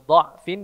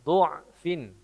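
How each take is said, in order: First: The first vowel is an open 'a' sound. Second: The first vowel is a rounded 'u' sound. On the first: "Yang semestinya dha'fin" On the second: "dibaca du'fin"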